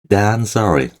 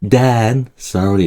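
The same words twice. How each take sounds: First: 'Than' is weak and 'sorry' is stronger. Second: 'Than' is said strongly, as loud as 'sorry'. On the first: The speaker calls it right. "than보다는 sorry가 더 세죠" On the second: The speaker calls it wrong. "이렇게 안 하고요. 약해요"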